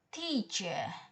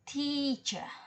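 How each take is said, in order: First: The stressed syllable is higher in pitch. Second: The stressed syllable is held longer. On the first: "highernya teacher" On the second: "longernya teacher"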